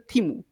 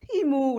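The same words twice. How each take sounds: First: It is short and level, sounding certain. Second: The end rises and is drawn out, doubtful.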